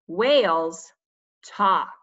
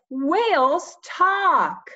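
First: The voice is flat and plain. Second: The voice is lively and excited. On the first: The speaker calls it wrong. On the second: The speaker calls it right.

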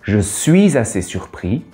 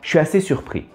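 First: Each syllable of 'je suis' is said fully. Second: 'Je suis' is squeezed into one short syllable. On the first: "Vous avez entendu" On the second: "qui se transforme en"

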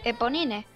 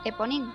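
First: The name is pronounced the Spanish way. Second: The name is pronounced the French way. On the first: This is the form most people have been using. "esa es la segunda opción y la que a día de hoy me gusta" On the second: This is true to the name's original source. "si fuéramos fieles a la procedencia del nombre, que es del personaje de Los Miserables"

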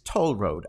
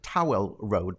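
First: The first word sounds like toll. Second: The first word sounds like towel. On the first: The speaker calls it right. "but it's Toll Road, actually" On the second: The speaker calls it wrong. "I used to pronounce it Towel Road"

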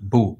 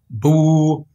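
First: The vowel is short. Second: The vowel is long. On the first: "sem nenhum prolongamento" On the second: "esta vogal dhamma pode ser prolongada através da escrita da letra waw"

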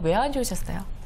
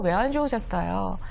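First: The question is asked in a plain, flat tone. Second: The question is asked in a warm, sympathetic tone. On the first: The listener's feelings are not acknowledged. The speaker calls it wrong. "그냥 왜 안 좋으셨어요가 아니라" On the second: The listener feels their feelings are shared. The speaker calls it right. "저 사람이 내 마음을 공감을 해 주고 있구나"

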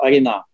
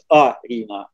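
First: The stress is on the last syllable. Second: The stress is on the first syllable. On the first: It is said the Balinese way. "А если это будет на балийском, то Арина" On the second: It is said the Bahasa Indonesia way. "Если это на Бахасе Индонезия, это будет Арина"

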